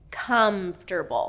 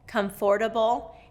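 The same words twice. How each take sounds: First: The word is said with three syllables. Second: The word is said with four syllables. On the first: The speaker calls it right. "native speakers reduce it to three syllables" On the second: The speaker calls it wrong. "make it four syllables"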